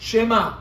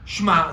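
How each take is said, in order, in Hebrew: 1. התנועה הראשונה היא e קצרה וקלה. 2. התנועה הראשונה נשמטת לגמרי. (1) "זה אומנם שווה נע" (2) "זה לא שווה נח"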